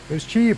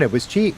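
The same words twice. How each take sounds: First: Cheap said much higher, rising; emphatic high repeat. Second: Said in the usual way. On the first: Shown as a demonstration. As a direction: It was cheap, jumping way up in pitch on cheap.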